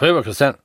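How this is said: It is said in a mumbled regional dialect. "in meiner Region ... die nuscheln alles weg"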